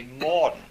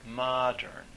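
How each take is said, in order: First: Put-on "modern" as "mawd'n" in a New England accent, louder; mock New England accent, saying "modern" with no r, "mawd'n". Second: Said in the usual way. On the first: Lecturer imitates professor's "modern", heavy New England accent. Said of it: "horrible New England accent".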